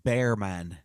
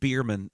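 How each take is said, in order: First: The first syllable rhymes with 'bear'. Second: The first syllable rhymes with 'beer'. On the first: The speaker calls it right. "It's Bearman" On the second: The speaker calls it wrong. "Stop calling him Beerman"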